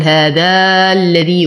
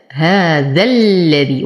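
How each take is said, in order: First: "هذا الذي" with the alif of ذا wrongly drawn out before the lam; مد خاطئ للألف. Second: Slow "هذا الذي", going from the short fatha of ذا straight into a doubled lam; وصل الذال باللام. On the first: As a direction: stretch the ذا in "هذا الذي" as a mistaken long vowel. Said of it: "ولا أقول هذا الذي وهذا خطأ". ("هذا الذي" بمد الألف خطأً قبل اللام) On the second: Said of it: "فأنتقل من فتحة الذال إلى تشديد اللام". ("هذا الذي" بإسقاط الألف وتشديد اللام ببطء) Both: Shown as a demonstration.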